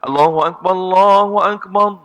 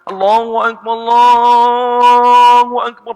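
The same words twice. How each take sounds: First: The words are said quickly and briefly. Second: The words are drawn out long.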